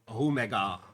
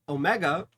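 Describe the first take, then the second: First: The word is said with a non-American pronunciation. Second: The word is said with an American pronunciation. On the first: The speaker calls it right. "The proper pronunciation is Omega" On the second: The speaker calls it wrong. "I'm saying it like an American"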